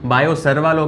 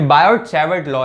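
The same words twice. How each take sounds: First: "सर्वा" as sar-vaa, no final t; mispronounced as Sarva. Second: "बायोट सैवर्ट" as bai-ot sai-vart, both t's sounded; corrected pronunciation. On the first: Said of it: "ये आपका सर्वा नहीं है चचा". ("सर्वा" का गलत उच्चारण, सर-वा, अंत में ट नहीं) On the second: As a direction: say "सैवर्ट" with sai first and a final t. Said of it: "सर्वा नहीं, बायोट सैवर्ट law". ("बायोट सैवर्ट", दोनों ट साफ़ बोलते हुए) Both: Shown as a demonstration.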